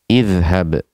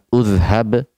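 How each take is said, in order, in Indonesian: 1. Kata ini dimulai dengan vokal 'i'. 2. Kata ini dimulai dengan vokal 'u'. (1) "hamzah wasal dalam keadaan kasroh" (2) "Kita tidak mengatakan udhhab"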